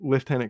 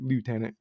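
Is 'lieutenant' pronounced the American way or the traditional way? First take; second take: traditional; American. First: It is pronounced the traditional, non-American way. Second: It is pronounced the American way. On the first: "the way that it's traditionally pronounced" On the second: "you Americans pronounce it lieutenant"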